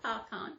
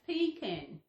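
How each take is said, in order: First: The first syllable sounds like "pa". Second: The first syllable sounds like "pea". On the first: The speaker calls it wrong. "not pecan. If it was pecan, it was P A C A N" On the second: The speaker calls it right. "So it's pronounced pecan, P E A C A N"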